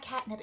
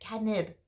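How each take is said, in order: First: It sounds like the English word catnip. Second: It sounds like Korean kkaennip, ending in nib. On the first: The speaker calls it wrong. "It's not catnip" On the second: The speaker calls it right. "It's catnip. Nib"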